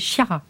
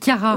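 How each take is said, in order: First: The name is pronounced the French way. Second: The name is pronounced the Italian way. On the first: The speaker calls it right. "mais c'est Chiara" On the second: The speaker calls it wrong. "j'ai prononcé à l'italienne"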